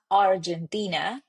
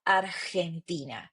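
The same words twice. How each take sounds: First: Argentina with an English j sound, ar-jen-TEE-na; English pronunciation. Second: Argentina with a throaty Spanish g, ar-khen-tina; Spanish pronunciation. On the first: Teacher showing the wrong version, English pronunciation. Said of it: "It's not Argentina". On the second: Teacher showing the correct Spanish, rough g. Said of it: "but Argentina". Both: Shown as a demonstration.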